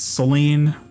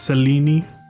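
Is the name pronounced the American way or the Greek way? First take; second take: American; Greek. First: The name gets an American English pronunciation. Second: The name gets a modern Greek pronunciation. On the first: "That's like the American way to say it" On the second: "the modern Greek pronunciation"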